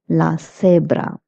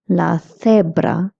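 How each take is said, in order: First: The c sounds like English 's'. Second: The c sounds like English 'th'. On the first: "You can also say" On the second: "C E I'm also pronouncing it as fe"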